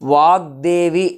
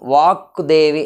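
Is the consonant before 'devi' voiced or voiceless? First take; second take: voiced; voiceless. First: The consonant before 'devi' is a voiced g. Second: The consonant before 'devi' is a voiceless k. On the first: The speaker calls it right. "అంటాం" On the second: The speaker calls it wrong. "అని అనము"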